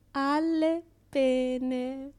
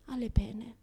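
First: Alle pene said very slowly, stretched; slow knowing emphasis on Alle pene; drawn-out pun. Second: Said in the usual way. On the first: Shown as a demonstration. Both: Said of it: "Che ironia della sorte".

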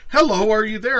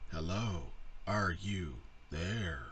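First: High, loud mock greeting; loud mimicry. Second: Slow, low, soft robot voice; halting robot, word by word; computer voice. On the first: Mimicking what she typed on screen, loud mock call. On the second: Retold or imitated. Mimicking the movie computer's reply, slow computer voice. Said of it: "very fucking annoying computer voice".

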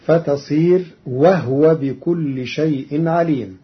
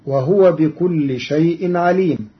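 First: وهو with no vowel on the ه, said wahwa; وهو clipped, ه without a vowel; silent ha. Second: Said in the usual way. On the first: Shown as a demonstration. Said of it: "بإسكان الهاء". (وهو بإسكان الهاء) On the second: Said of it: "قرأ قالون كلمة وهو".

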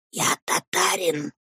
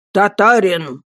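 First: Soft, hushed declaration; whispered boast. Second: Loud, full-voiced repeat; booming echo. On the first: Headmaster declares himself to the boy, whispering. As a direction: declare it under your breath. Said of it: "мог говорить только шёпотом". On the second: Man with wooden leg echoes headmaster, booming. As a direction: boom the word back. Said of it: "со своим громовым голосом". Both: A narrator's reading.

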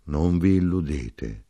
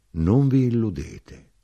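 First: Said in the usual way. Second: "non vi illudete" slow, raised higher and louder; insistent warning. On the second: A narrator's reading. Wine king warning his companions, "non vi illudete" slow and insistent. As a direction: press "non vi illudete" harder, drawn out.

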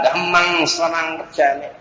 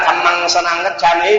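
First: "Tham Măng" slowly as da-ham-mang, h sounded; softer, slower "Tham Măng Sa Năng Cách Sa Ní" with aspirated dh; correct Pali. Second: "Tham Măng" run together, dha as one syllable; quick reading. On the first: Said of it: "Còn nếu mà đọc đúng á". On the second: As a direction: blend the opening of "Tham Măng Sa Năng Cách Sa Ní". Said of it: "đọc nhanh á". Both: Shown as a demonstration.

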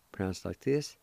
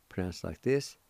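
The two takes are said the same way.

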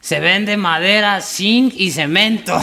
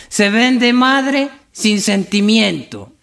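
First: Slow, high, spelled-out "madera, zinc y cemento"; corrective reading. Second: High, very drawn-out lament on "madre sin sentimiento"; tearful misreading. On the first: Compadre corrects the misread sign, slow emphatic reading. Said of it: "Ahí dices". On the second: Drunk misreads a sign to his compadre, slow weepy lament. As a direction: stretch "madre sin sentimiento" slowly in mock grief. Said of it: "Vea ese letrero que dice ahí". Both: Acted.

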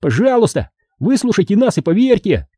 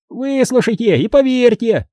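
First: High-pitched gnome plea; high, earnest little voice; pleading. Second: High gnome voice repeating like an echo. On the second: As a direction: echo the plea high, stretching the stresses. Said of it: "словно эхо повторил Уэсли". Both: A narrator's reading.

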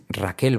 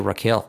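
First: "Raquel" the Spanish way, with a light clear L; slow Spanish 'Raquel'; tongue-tip L ending RAQUEL. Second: "Raquel" as a native English speaker, L far back; anglicised Raquel, dark final L. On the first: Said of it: "Nunca va a decir". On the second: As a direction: RAQUEL ending in a swallowed 'ol'. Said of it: "van a decir Raquel". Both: Shown as a demonstration.

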